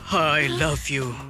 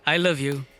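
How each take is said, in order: First: It is said with strong feeling and energy. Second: It is said calmly, without feeling.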